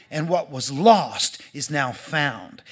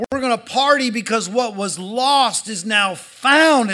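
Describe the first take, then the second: First: Calm a hurt son with love; gentle father. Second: Loud, high joyful proclamation; excited father. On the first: Father reassuring his jealous older son, tender and slow. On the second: Father announcing his son's return to servants, jubilant. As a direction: shout the good news to the whole house. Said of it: "the dad's excited". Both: Acted.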